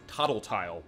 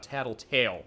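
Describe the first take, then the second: First: The names sound like tottle and tile. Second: The names sound like tattle and tail. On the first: The speaker calls it wrong. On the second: The speaker calls it right.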